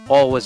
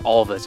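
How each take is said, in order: First: The middle consonant sounds like a W. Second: The middle consonant sounds like a V. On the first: This is the American way to say it. "pronounce it like like an American and not like a Swede" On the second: This is the Swedish way to say it. "Little V sound in there"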